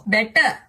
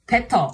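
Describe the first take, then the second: First: "Better" with a retroflex t and a rising end; "Better" said as "beta" in a Korean accent. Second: "better" said as "petto" with a heavy Indian accent; "better" with an aspirated p and a long held t. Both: Shown as a demonstration. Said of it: "Pronouncing English words in Indian and Korean accent".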